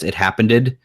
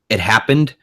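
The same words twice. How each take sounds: First: The ending is a separate syllable, giving three. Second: The ending is run in, giving two syllables.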